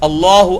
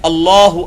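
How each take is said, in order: The two takes are said the same way.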